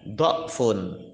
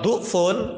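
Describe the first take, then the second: First: The first vowel is an o sound. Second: The first vowel is a u sound. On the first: It means multiplied. "boleh dibaca do'fun" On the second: It means weak. "kalau du'fun maknanya apa? Lem, lemah"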